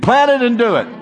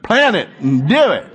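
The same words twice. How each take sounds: First: It is said in a plain, neutral accent. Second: It is said in a southern accent. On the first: "say it with me" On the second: "Say it southern"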